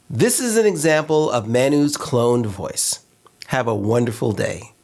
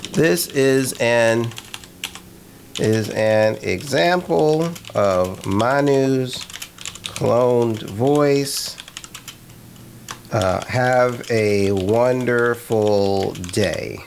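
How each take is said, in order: First: A natural smiling human read of the test line; with a smile. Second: Slow, word by word dictation while typing; slowly dictating a test line for the voice cloner. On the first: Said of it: "Can A I put a smile behind the words?". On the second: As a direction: read it out slowly as you type it. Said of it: "And I'm gonna type". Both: Shown as a demonstration.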